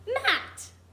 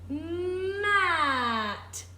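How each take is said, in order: First: The word is said at normal speed. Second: The word is said slowly and stretched out.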